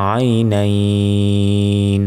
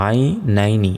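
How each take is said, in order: First: "আই নাইন" with a very long ai before the final n; slow pausal "আই নাইন", ending greatly stretched; drawn-out madd. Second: Said in the usual way. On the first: Shown as a demonstration. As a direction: hold "নাইন" on one level note, closing on n. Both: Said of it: "এখানে থামলে".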